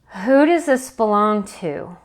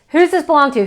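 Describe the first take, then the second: First: It is said slowly, after a pause. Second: It is said quickly, repeated with no pause. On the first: It leaves space for awareness to come in. The speaker calls it right. "At least take a breath" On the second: It works like a mantra that winds one up. The speaker calls it wrong. "what I have also done poorly is"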